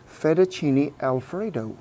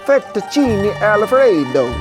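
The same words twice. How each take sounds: First: It is said in his plain accent. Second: It is said in a put-on Italian accent.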